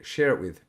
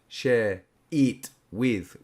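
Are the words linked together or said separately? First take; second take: linked; separate. First: The words run together like one word. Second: Each word is said fully and separately. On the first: "We're share it with" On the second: "we're not forming like the full sounds of"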